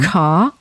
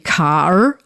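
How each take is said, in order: First: The final R sound is left silent. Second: The final R sound is pronounced. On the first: The speaker calls it right. "I would say mm-hmm. car" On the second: The speaker calls it wrong. "I wouldn't say car"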